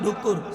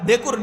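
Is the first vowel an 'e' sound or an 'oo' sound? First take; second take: oo; e. First: The first vowel is an 'oo' sound. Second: The first vowel is an 'e' sound. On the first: This is the village dialect form. "আমার গ্রামের ভাষায় বলে ডুকুর" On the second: This is the Dhaka form. "ঢাকার মানুষ ডেকুর"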